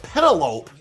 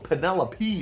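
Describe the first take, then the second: First: The name ends in a single 'lope' syllable. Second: The name ends in 'lo-pee' with four syllables. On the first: This is how the speaker misread the name. The speaker calls it wrong. "I always thought it was Penelope" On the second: This is the name's real pronunciation. The speaker calls it right. "but no, it's Penelope"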